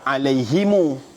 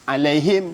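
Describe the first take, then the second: First: The final m carries an added u vowel. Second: The word ends on a silent final m.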